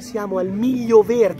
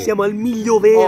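First: The phrase is said at a quieter volume. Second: The phrase is said at a louder volume.

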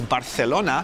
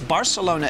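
First: It is said with a Spanish pronunciation. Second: It is said with an English pronunciation. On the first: "it's Barcelona if you're speaking Spanish" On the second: "It's Barcelona if you're speaking English"

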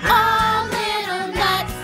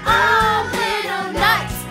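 First: The voice is bigger and louder. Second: The voice is biggest and loudest. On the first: "in her bigger voice said" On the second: "in her biggest voice said"

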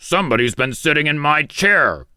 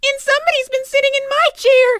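First: It is a deep, gruff, growling voice. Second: It is a high, shrill, squeaky voice.

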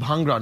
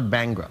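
First: It is said in a native-style pronunciation. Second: It is said in an anglicized accent. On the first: The speaker calls it right. "It's pronounced Bhangra" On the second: The speaker calls it wrong. "not Bhangra"

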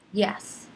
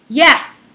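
First: It sounds annoyed. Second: It sounds angry.

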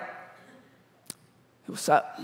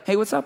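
First: It sounds creepy and flirty. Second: It sounds casual and neutral.

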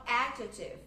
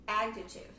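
First: The stress is on the first syllable. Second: The same.

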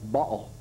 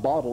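First: The word is said in a Brooklyn accent. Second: The word is said in a standard accent. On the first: "in Brooklyn, ... it's ball" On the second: "it's not bottle"

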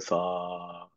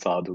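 First: The word is said very slowly and drawn out. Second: The word is said at a normal quick length. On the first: "she said it in a very slow way. So much longer" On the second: "everyone responds"

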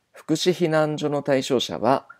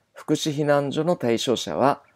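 The two takes are said the same way.

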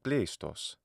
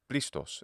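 First: It is said with the ancient Greek pronunciation. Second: It is said with the modern Greek pronunciation.

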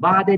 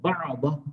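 First: The consonant is said light and thin. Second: The consonant is said heavy and thick. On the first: The speaker calls it wrong. "Ba'da değil" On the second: The speaker calls it right. "Bakın ba'da, kalın"

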